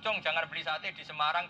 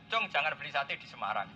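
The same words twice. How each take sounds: First: It runs straight on with no pause. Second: There is a clear pause after Semarang. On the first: Buying satay in all the listed places is forbidden. "Tapi kalau langsung" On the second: Only Semarang is ruled out; another place is recommended. "Tapi kalau ada Jeddah"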